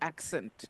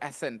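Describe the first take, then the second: First: The double c is said as k plus s. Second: The double c is said as a single s. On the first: The speaker calls it right. "Double C, accent" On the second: The speaker calls it wrong. "not accent"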